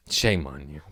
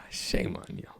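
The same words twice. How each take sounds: First: Said in the usual way. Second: Low whispered "shame on you". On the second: Pretend. Scolding people who skipped Terminator, whispered. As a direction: hush it like a secret scold.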